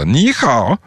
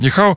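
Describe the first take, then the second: First: The syllables carry distinct melodic tones. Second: The syllables are said flat without tones. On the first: Listeners understand the greeting. The speaker calls it right. "как надо. Ни хао. Вот так" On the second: Listeners do not understand the greeting. The speaker calls it wrong. "если просто сказать ни хао"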